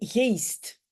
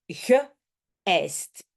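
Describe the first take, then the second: First: The middle vowels are merged into one sound. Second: The middle vowels are split into two parts. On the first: The speaker calls it wrong. "et pas" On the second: The speaker calls it right. "on prononce en deux parties"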